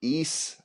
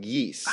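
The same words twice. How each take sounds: First: "Ease" with no y sound, rising as a question; pronounced like ease. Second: "yeast" said with a y sound up front; pronounced like yeast. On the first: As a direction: ask "Ease" starting straight on the long ee. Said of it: "I think it's ease". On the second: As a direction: start "yeast" on a y glide, like yees. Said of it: "it's pronounced like". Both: Shown as a demonstration.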